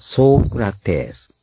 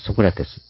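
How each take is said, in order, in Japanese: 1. 最初の母音は長い。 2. 最初の母音は短い。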